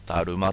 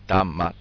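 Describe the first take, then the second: First: The middle consonant is an r sound. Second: The middle consonant is an n sound. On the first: The speaker calls it wrong. "ダルマというふうにね" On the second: The speaker calls it right. "正確に言うとダンマですか"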